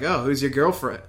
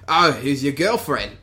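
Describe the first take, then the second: First: Said in the usual way. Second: Imitated Australian accent. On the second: Bounty hunter teasing Bosk as he passes, imitated Australian accent. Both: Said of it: "his Australian accent".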